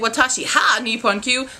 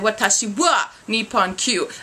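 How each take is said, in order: First: The particle is pronounced with an h sound. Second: The particle is pronounced with a w sound. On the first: The speaker calls it wrong. "I wouldn't say watashi ha Nippon Q. That's wrong" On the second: The speaker calls it right. "I'd say watashi wa Nippon Q"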